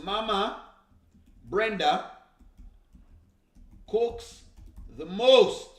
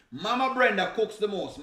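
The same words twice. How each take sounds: First: Mama Brenda cooks the most, each word split by pauses; slow emphatic repeat. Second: Said in the usual way. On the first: Shown as a demonstration.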